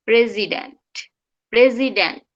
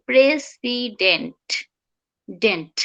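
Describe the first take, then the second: First: প্রেসিডেন্ট with final T stopped; held T. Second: প্রেসিডেন্ট slowly, final T released. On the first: Teacher correcting the final T, held T. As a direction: end প্রেসিডেন্ট with tongue up, no release. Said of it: "টিটা আর নিচে নামবে না". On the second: Teacher showing what we say, released T. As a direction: drop the tongue after the T of ডেন্ট. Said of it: "টিটা আবার নিচে নামাই দিই". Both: Shown as a demonstration.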